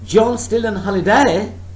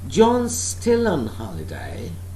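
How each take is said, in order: First: The pitch rises at the end. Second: The pitch falls at the end. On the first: It is a question that needs an answer. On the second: It is information, not a question.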